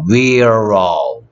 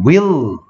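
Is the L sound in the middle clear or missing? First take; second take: missing; clear. First: The word is said without a clear L sound. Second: The word is said with a clear L sound. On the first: The speaker calls it wrong. "위로우가 아니고" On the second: The speaker calls it right. "윌로우 L은 을답게 윌로우"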